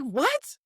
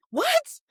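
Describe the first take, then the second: First: What? rising, moderately surprised; a first, milder What?; startled what. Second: What? shot up high and rising; What? squeaked much higher in disbelief; second What? far higher and louder; shrieked what. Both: Retold or imitated. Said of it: "I was like".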